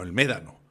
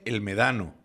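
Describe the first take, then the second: First: The stress is on the first syllable. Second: The stress is on the second syllable. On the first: The speaker calls it right. "No, el Médano" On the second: The speaker calls it wrong. "Sigo leyendo y pone el Medano"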